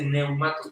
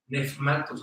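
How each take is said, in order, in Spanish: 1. La primera sílaba termina en un glide vocálico. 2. La primera sílaba termina en un sonido F. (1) "luego dice neumatos" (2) "ese diptongo se pronuncia con F"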